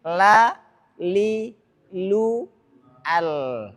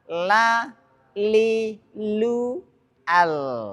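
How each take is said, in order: Both takes have the same delivery.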